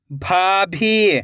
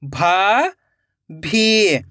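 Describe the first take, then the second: First: भाभी joined as one slow word; blended word. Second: भाभी split into भा, long pause, भी; rising भा, then falling भी; syllable by syllable. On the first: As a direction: read भाभी whole, falling at the end. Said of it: "खींच के पढ़ना है". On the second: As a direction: sound out भाभी very slowly in two parts. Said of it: "एक एक अक्षर का उच्चारण करना है". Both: Shown as a demonstration.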